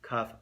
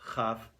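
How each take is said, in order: First: The first consonant is a hard stop sound. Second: The first consonant is a soft friction sound. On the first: "There's the hard sound of a kaf" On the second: "There's a soft chaf"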